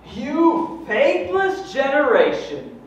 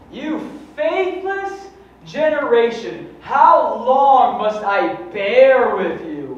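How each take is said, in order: First: High, loud, slow rebuke; Jesus rebuking. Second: High, loud, slow stern rebuke; Jesus rebuking. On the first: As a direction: thunder it out as a stern Jesus. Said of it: "And Jesus goes". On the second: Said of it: "that sounds for real". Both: Acted.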